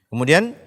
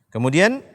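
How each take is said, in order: Both takes have the same delivery.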